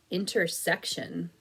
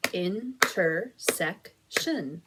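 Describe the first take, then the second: First: Said in the usual way. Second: Intersection split slowly into In-ter-sec-tion; clapped syllables. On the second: Shown as a demonstration. Teacher claps Intersection with young students, slow and evenly spaced. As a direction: tap out Intersection one slow syllable at a time. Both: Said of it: "Clap it out with me".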